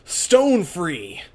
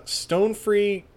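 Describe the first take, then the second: First: High, loud battle call; battle cry. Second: Said in the usual way. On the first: Acted. Heroine calls on her stand, battle cry. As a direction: call out your attack, raised and loud.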